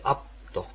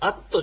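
First: A p sound with closed lips comes before t. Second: The p sound is dropped before the t. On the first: The speaker calls it right. "こう口を閉じるような、発音でしてね" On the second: The speaker calls it wrong. "アットじゃなくて"

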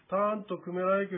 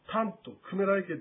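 First: The pitch stays flat throughout the phrase. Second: The pitch rises and falls across the phrase. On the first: The speaker calls it right. "割と平坦に発音するとよろしい" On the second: The speaker calls it wrong. "タントクメライケというように言わない方が"

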